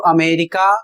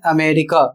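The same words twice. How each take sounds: First: अमेरिका starting with a full clear a; अमेरिका as aa-merika, the reading to avoid; wrong America. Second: अमेरिका starting with a light schwa; अमेरिका as ə-merika, first syllable unstressed; correct America. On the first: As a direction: say अमेरिका with a strong open first vowel. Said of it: "नहीं बोलना है". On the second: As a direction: say अमेरिका with a weak, short first vowel. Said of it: "इसको बोलना है अमेरिका". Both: Shown as a demonstration.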